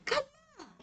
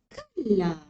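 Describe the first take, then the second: First: The word is said at a high pitch. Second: The word is said at a low pitch. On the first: "pitching tinggi boleh" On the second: "low note pun boleh"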